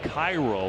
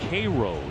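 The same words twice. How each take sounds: First: The name is said the way it is spelled. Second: The name is said the local way. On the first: The speaker calls it wrong. "It looks like Cairo when you read it" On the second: The speaker calls it right. "It's actually pronounced Cairo"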